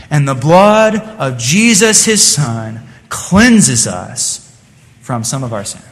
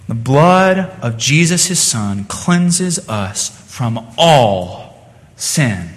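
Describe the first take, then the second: First: Said in the usual way. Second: Slow, with "all" leaned on to correct; stress on ALL. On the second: Shown as a demonstration. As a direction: hit the word "all" in "all sin". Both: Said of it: "Now, what does it say?".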